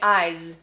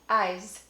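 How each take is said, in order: First: The final sound is a fully voiced z. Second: The final sound is partly devoiced, near s. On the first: The speaker calls it wrong. "most of us don't say eyes" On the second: The speaker calls it right. "We say eyes. ... It's sort of in the middle"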